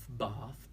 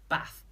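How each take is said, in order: First: The vowel is long, as in southern English. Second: The vowel is short, as in northern English. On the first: "In Southern English, they have the longer vowels" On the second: "I have these short northern vowels"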